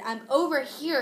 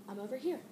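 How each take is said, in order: First: A louder, insistent call across the house; mild mock yell at mom; retold yell to mom. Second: Said in the usual way. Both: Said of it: "Dang, you don't have to yell".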